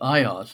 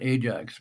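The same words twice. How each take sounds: First: The name is said in its original Greek form. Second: The name is said in its familiar English form. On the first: This is the hero's original name. "his real name is Ajax" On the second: This is the name as it later became known. "not Ajax"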